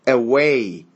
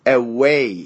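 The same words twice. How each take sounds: No difference in how they are said.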